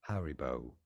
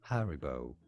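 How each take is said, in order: The two takes are said the same way.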